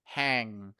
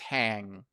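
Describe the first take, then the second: No difference in how they are said.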